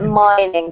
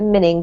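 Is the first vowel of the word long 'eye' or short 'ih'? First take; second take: long eye; short ih. First: The first vowel is a long 'eye' sound. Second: The first vowel is a short 'ih' sound. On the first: The speaker calls it right. "So don't forget mining" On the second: The speaker calls it wrong. "We can't pronounce it minning because it doesn't have a double N"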